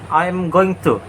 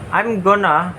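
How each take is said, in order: First: Each word is said fully and separately. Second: The words are blended into a reduced form.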